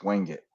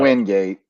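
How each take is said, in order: First: The name ends with a reduced 'it' sound. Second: The name ends with a full 'gate' sound. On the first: The speaker calls it right. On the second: The speaker calls it wrong. "it's not"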